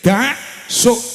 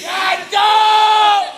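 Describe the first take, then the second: First: Two separate syllables with a clear break between them. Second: The syllables run together with an n sound. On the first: Stay away from bad things. "dak itu artinya jauhi" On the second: A Javanese mouth cannot say the original form. "Cangkeme wong Jawa gak iso muni dak suk, akhire dadi dancuk"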